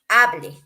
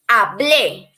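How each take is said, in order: First: The stress is on the first syllable. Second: The stress is on the last syllable. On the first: It refers to another tense, the imperative. "if you say hable and you don't write the accent" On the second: It refers to the past tense. "you make this emphasis when you are writing the accent"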